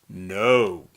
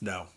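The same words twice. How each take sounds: First: The word is said forcefully, not calmly. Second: The word is said calmly and evenly. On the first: "Sometimes I'll say it like this" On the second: "I usually say it like this: ... usually it's just kind of a calm no"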